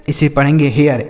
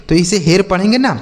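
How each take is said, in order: First: हेयर with the vowel gliding, ए into य before र; correct reading. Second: हेर said as a single short syllable, like हेट; reading हेर the naive way, one short vowel; the mistaken हेर, short and clipped to one beat; wrong reading. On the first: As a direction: say हेयर the right way, two-part vowel. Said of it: "इसी आर की वजह से इसका उच्चारण बदल गया". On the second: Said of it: "नहीं बच्चों, यहीं पर आप गलतियाँ करेंगे". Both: Shown as a demonstration.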